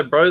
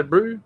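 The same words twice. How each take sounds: First: Said in the usual way. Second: "brew" said as Kiwi bro, vowel pushed to oo; New Zealand bro. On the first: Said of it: "they say brew". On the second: Shown as a demonstration. Aussie shows how Kiwis say bro, "brew". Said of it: "Like I say, bro, they say brew".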